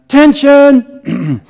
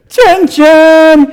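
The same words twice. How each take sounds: First: It is shouted at a normal, lower pitch. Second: It is shouted about an octave higher.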